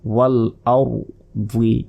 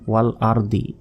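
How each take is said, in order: First: The word is said with careful, precise articulation. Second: The word is said with a common mispronunciation. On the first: The speaker calls it right. "এভাবে বলতে হবে" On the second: The speaker calls it wrong. "অনেকে বলে ওয়াল আরদি এটা কিন্তু ভুল"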